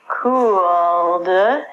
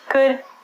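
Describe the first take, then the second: First: The L sound is pronounced. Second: The L sound is silent. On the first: The speaker calls it wrong. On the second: The speaker calls it right.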